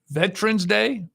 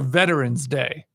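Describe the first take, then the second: First: Veterans is said with two syllables. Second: Veterans is said with three syllables. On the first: "two syllables" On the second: "three syllables"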